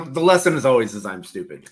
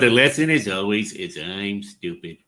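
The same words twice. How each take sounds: First: It is said in his normal voice. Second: It is said in a Homer Simpson voice.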